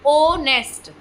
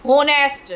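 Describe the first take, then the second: First: ऑनेस्ट with a silent h, starting on the vowel. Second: होनेस्ट with the h sounded, said firmly; wrong pronunciation. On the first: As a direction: say ऑनेस्ट with no h sound, opening on o. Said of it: "एच silent रहता है". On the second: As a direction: say होनेस्ट with a clear h at the start. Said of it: "पहले वाली pronunciation प्रयोग करते रहते हैं". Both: Shown as a demonstration.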